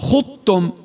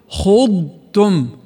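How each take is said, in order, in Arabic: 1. الضاد تُدغم في التاء التي بعدها. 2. الضاد يُنطق كاملًا قبل التاء. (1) "فيقولون خطأ" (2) "الصح إذن"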